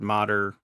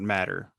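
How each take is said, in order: First: The word is said with an 'o' vowel and a 'd' sound. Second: The word is said with an 'a' vowel and a 't' sound. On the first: This is how the family says their name. The speaker calls it right. "they pronounce it Modder" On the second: This is how the spelling suggests it is said. The speaker calls it wrong. "not Matter"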